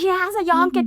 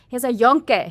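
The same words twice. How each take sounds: First: It is yelled at full volume. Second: It is said more loudly than normal. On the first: The speaker is frustrated at not being heard. "I was like yelling" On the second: The listener seemed not to hear it. "So I said it louder"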